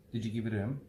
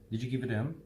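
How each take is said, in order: First: The words are fast, reduced and run together. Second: The same.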